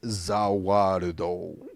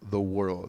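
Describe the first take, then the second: First: It is said with Japanese-style sounds and syllables. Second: It is said with plain English sounds.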